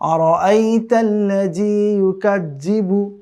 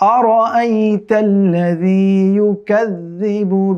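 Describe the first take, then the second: First: The dh consonants sound like a hard 'j'. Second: The dh consonants sound like a soft 'dh'. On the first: The speaker calls it wrong. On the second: The speaker calls it right.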